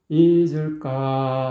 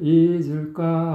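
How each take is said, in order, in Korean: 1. 마지막 음절이 낮고 안정감 있게 깔려요. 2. 마지막 음절이 살짝 떠요. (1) "딱 안착이 돼야 되는데" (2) "까가 살짝 떠버렸어요"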